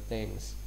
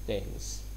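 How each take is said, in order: No difference in how they are said.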